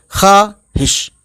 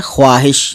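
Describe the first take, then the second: First: "ख्वाहिश" as khaa-hish, slow, split in two, no w; silent w. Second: "ख्वाहिश" with the w sounded, khwaa-hish; spelling pronunciation. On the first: Teacher showing how it is read, silent w. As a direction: drop the w in ख्वाहिश and draw out khaa. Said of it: "लेकिन पढ़ेंगे ख्वाहिश". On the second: Teacher showing what is written, spelling pronunciation. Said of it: "लिखा है ख्वाहिश". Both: Shown as a demonstration.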